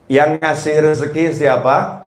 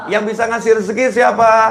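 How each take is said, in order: First: It is said slowly. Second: It is said fast.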